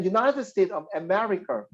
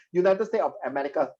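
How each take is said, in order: First: America read out in full, clearly and evenly; proper reading. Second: Said in the usual way. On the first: Shown as a demonstration. Teacher modelling the right reading of America for the class, clear and even. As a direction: say America carefully and correctly. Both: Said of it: "You must read like that".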